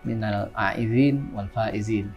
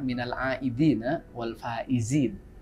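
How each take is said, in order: First: The word aidin ends on the n sound. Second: The word aidin ends with an added a vowel. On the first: The speaker calls it wrong. "kadang-kadang ada orang yang mengucapkannya mungkin agak tidak sesuai" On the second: The speaker calls it right. "pengucapannya itu yang benar"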